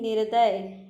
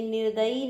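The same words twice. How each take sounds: First: निर्दय with no final vowel; निर्दय given as the right form; correct form. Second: निर्दयी with a long final ई; निर्दयी as the wrong form. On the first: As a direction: says निर्दय short, without the ई. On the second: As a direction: says निर्दयी, ending on a long ई. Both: Shown as a demonstration. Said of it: "निर्दयी नहीं".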